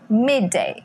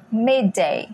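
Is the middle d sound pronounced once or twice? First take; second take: once; once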